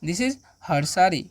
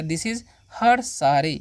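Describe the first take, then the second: First: "This is her saree" drawn out slowly; slow, careful repeat; slow dictation. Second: Said in the usual way. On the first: Shown as a demonstration. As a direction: repeat it slowly so learners follow. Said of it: "यह उसकी साड़ी है". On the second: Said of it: "या".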